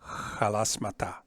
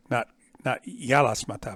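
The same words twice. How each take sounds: First: Halasmata with a rough throaty h at the start. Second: Yalasmata with a smooth y glide and no friction; wrong soft y. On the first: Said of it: "not yalasmata, but halasmata". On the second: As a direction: say yalasmata with a plain y start. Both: Shown as a demonstration.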